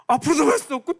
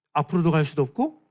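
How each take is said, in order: First: 앞으로도 갈 수도 없고 said higher and louder; raised. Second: Said in the usual way. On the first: Shown as a demonstration. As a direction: push it up with urgency. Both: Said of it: "repeated louder".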